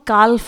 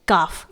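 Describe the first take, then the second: First: The L sound is pronounced before the F. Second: The L sound is silent before the F. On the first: The speaker calls it wrong. "इसे हम काल्फ नहीं पढ़ेंगे" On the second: The speaker calls it right. "It is काफ"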